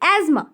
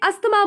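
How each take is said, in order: First: The 'th' sound is left out in the middle. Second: The 'th' sound is pronounced in the middle. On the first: This is the correct pronunciation. "सही उच्चारण है" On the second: This is how most people say it. "लोग इसे अस्थमा बोलते हैं"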